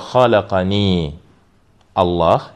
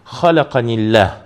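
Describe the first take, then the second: First: The two words are said separately. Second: The two words are run together. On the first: "если мы останавливаемся" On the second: "если соединяем"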